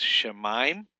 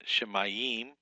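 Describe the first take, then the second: First: Shemaim said in two syllables, sha-mime; the correct shemaim. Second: Shemayim said slowly in three syllables, she-ma-yim; the mistaken shemayim; wrong three-syllable shemayim. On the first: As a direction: give shemaim just two beats. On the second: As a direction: drag shemayim out over three beats. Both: Shown as a demonstration. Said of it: "It's not three syllables".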